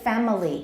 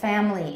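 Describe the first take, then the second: First: All three syllables are said, keeping the middle vowel. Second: Two syllables are said, dropping the middle vowel. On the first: "We can say family, no problem" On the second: "Usually we say family in American English"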